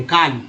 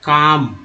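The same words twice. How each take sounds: First: काल्म with the "l" sounded, "kaalm"; wrong pronunciation. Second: काम with a long "aa" and no l, "kaam"; correct silent l. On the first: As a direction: mispronounce काल्म, voicing the l. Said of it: "ये काल्म नहीं होता है". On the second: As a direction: model काम slowly stretched, l silent. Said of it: "एल जो है silent है". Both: Shown as a demonstration.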